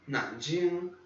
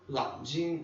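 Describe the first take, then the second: First: The word begins with an N sound. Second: The word begins with an L sound. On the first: "eu morava numa cidade chamada Nanjing" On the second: "eles falavam Lanjing"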